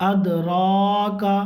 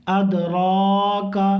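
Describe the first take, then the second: No difference in how they are said.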